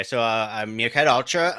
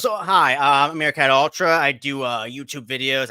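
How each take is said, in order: First: Said in the usual way. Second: High, loud chirpy meerkat voice. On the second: Shown as a demonstration. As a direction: pitch up into a bright chirpy meerkat. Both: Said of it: "let me see if I can do the Meerkat voice".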